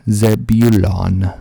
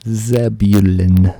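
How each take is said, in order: First: Zebulon loud and slow, ending in "lahn"; full last vowel. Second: Zebulon loud and slow, ending in "lun"; reduced last syllable. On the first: Host alternating readings of a town, Zebulon as "ZEB-yoo-lahn". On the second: Host alternating readings of a town, Zebulon as "ZEB-yoo-lun". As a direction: weaken the last vowel of a loud, stretched Zebulon. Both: Shown as a demonstration.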